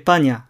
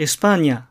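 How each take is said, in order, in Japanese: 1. 音節末のsは完全に落ちます。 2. 音節末のsははっきり発音されます。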